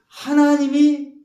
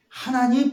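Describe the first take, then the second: First: 하나님이 stretched out slowly, much higher and louder; drawn-out emphasis. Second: Said in the usual way. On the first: Shown as a demonstration. Preacher dwelling on God's mercy, 하나님이 drawn out high and loud. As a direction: lean hard on 하나님이, slow and loud. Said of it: "emphasis in preaching". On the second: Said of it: "same word said plainly".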